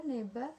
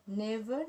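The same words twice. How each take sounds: First: Neba with a b for the v; Patois neba. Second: Said in the usual way. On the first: Shown as a demonstration. Student showing classmates the Patois neba. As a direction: say never as neba. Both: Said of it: "and then English, Patois".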